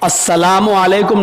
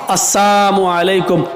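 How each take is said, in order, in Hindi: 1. अभिवादन पूरी 'salaam' ध्वनि के साथ कहा जाता है। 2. अभिवादन 'salaam' की जगह 'saam' के साथ कहा जाता है। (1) "अस्सलामु अलैकुम नहीं कहा उन्होंने, सलामती हो" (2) "बल्कि क्या कहा? ... मौत हो आप पर"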